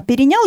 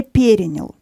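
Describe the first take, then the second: First: Перенял stressed on the final НЯЛ; weight on the last syllable of перенял; colloquial stress. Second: Перенял stressed on the first syllable ПЕ; strong ПЕ and light ending in перенял; literary stress. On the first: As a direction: say перенял the everyday way, leaning on НЯЛ. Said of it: "есть такое ударение". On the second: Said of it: "литературное ударение перенял". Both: Shown as a demonstration.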